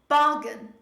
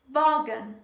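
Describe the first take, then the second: First: The stress is on the first syllable. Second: The stress is on the first syllable.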